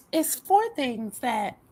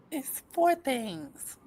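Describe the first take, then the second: First: Said in the usual way. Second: Slow, muffled words around a retainer; wearing a retainer. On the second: Real, not acted. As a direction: talk with the retainer still in. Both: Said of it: "let me take out my retainers".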